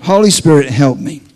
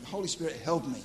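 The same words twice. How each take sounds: First: Loud, emphatic call for help; loud plea. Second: Soft aside prayer; quiet plea. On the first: Preacher stalling before interpreting the dream, loud plea. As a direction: call it out strongly to heaven. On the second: Preacher stalling for time, quiet plea. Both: Acted.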